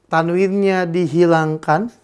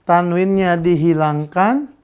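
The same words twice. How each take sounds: The two takes are said the same way.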